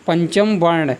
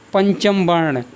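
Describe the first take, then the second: No difference in how they are said.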